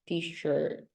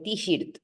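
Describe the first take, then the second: First: The vowel is an English r-colored vowel. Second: The vowel sounds like a Spanish vowel. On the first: The speaker calls it right. "no, t-shirt" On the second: The speaker calls it wrong. "or t-shirt"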